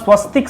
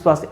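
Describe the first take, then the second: First: The vowel after 'sw' is a short 'a'. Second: The vowel after 'sw' is a long 'aa'. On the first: The speaker calls it right. "जो सही शब्द होता है वह स्वस्तिक शब्द होता है" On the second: The speaker calls it wrong. "स्वास्तिक शब्द गलत होता है"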